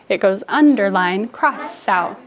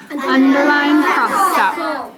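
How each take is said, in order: First: Said in the usual way. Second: Slow, higher "underline cross out"; silly voice. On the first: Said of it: "in a normal voice". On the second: Shown as a demonstration. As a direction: drag it out in a goofy voice. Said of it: "Nope, in a normal voice".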